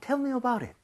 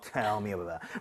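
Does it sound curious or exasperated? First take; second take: curious; exasperated. First: It sounds like a genuinely curious question. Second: It sounds weary and exasperated, eyes rolling.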